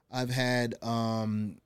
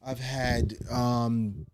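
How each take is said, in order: Both takes have the same delivery.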